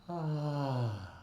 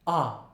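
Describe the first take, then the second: First: The vowel starts with a lot of breathy air. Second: The vowel starts with a hard glottal catch. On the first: "when it's very breathy" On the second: "the opposite, glottal"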